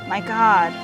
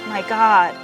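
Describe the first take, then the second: The two takes are said the same way.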